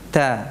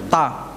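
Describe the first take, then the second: First: The consonant is said with weak, light release. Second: The consonant is said with strong, forceful release. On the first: The speaker calls it right. "Lemah, ya" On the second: The speaker calls it wrong. "jadi bukan tattali'u, ta, ta. Nah, tidak kuat seperti itu"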